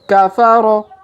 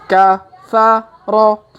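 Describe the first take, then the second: First: The syllables are read quickly, run together. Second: The syllables are read slowly, one by one. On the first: "Kalau dipercepat" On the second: "kita baca pelan-pelan"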